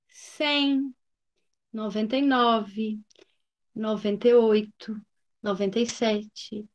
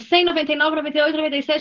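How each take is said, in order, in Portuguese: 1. Os números são contados devagar e com calma. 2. Os números são contados rapidamente e às pressas. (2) "O que não pode"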